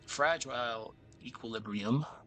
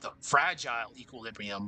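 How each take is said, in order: First: Equilibrium is said with strong extra emphasis. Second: Equilibrium is said without extra emphasis. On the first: The speaker calls it right. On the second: The speaker calls it wrong.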